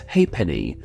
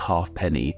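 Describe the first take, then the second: First: The f sound is left out. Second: The f sound is clearly pronounced. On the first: The speaker calls it right. "it is instead pronounced as ha'penny, which is actually a rare case of a silent F" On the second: The speaker calls it wrong. "it's not actually said like halfpenny"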